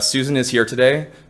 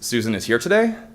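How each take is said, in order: First: The pitch falls at the end like a statement. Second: The pitch rises at the end like a question. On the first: It is a statement. "it would sound like a statement" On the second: It is a question. "we actually lift the, the pitch to indicate that it's a question"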